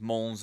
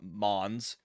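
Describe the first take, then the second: First: The final s is silent, French style. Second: The final s is clearly pronounced. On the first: The speaker calls it right. "I believe it is pronounced Mons" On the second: The speaker calls it wrong. "not Mons"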